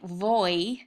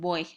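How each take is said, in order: First: It starts with a hard English V sound. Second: It starts with a soft B-like sound. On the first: The speaker calls it wrong. "I'm not really saying voy" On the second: The speaker calls it right. "I'm saying voy"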